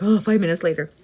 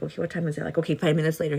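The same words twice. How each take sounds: First: Loud, groaning mock dismay; mock exasperation. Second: Said in the usual way. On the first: Worker watching the clock crawl at work, mock exasperated. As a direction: groan it out loudly, as if time crawls.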